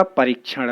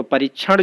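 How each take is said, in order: First: परीक्षण with the k sounded, 'pa-reek-chhan'; corrected form. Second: परीक्षण with short i, 'pa-rich-chhan'; wrong form. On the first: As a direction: give परीक्षण a long ree and a k. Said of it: "शुद्ध होगा". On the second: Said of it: "अशुद्ध है". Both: Shown as a demonstration.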